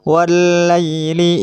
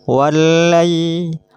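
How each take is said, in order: No difference in how they are said.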